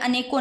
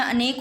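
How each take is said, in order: First: अनेकों ending in a nasal o; अनेकों as a-ne-kon; wrong plural ending. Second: अनेक ending on k; अनेक as a-nek; no plural ending. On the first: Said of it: "अनेकों नहीं होता". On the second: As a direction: finish अनेक on the consonant, no o. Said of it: "शुद्ध हमेशा अनेक होता है". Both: Shown as a demonstration.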